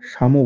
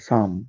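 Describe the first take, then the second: First: The word ends with an added o vowel. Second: The word ends on the consonant m. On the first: The speaker calls it wrong. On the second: The speaker calls it right.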